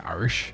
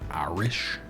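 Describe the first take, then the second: First: It is said with an Appalachian pronunciation. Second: It is said with a standard pronunciation. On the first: "That's why I say Irish" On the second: "I can't really say like Irish. It's very hard for me to say"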